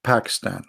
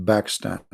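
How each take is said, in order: First: "Pakistan" opening on a puffed P. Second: "Pakistan" opening on a B; Pakistan without P. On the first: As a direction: give "Pakistan" a clear English P. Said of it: "we don't call it". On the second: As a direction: say "Pakistan" with B replacing the P. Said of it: "P in Arabic". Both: Shown as a demonstration.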